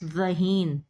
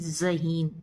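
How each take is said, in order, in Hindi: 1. पहली आवाज़ नरम z है, दाँत अलग। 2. पहली आवाज़ सख़्त z है, दाँत मिले हुए।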